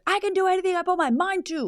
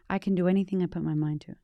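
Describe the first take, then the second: First: It is said very loudly and energetically. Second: It is said quietly, without much energy.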